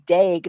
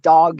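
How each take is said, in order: First: The vowel sounds like the one in 'bag'. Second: The vowel sounds like the one in 'dog'. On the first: The speaker calls it right. "it's Harry Dag" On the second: The speaker calls it wrong. "not dog, you idiot"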